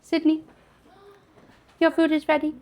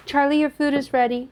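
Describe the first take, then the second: First: High, loud call to another room; yelling across the room. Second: Called out loud to another room; yelling across the room. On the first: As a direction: call her to come eat. Calling Sydney to come eat. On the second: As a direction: call out so he hears. Calling Charlie to come eat. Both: Real, not acted.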